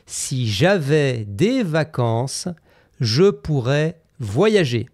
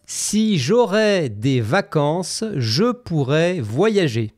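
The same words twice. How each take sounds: First: Slow careful "si j'avais" as the right version; "si j'avais" stressed, said slowly and clearly; correct form. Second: Slow demo of the wrong "si j'aurais"; "si j'aurais" said slowly as the mistake to avoid; wrong form. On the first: Teacher modelling the correct "si j'avais" slowly. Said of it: "tu dois dire". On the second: Teacher slowly voicing the learner's error "si j'aurais". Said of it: "Cinquième erreur". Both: Shown as a demonstration.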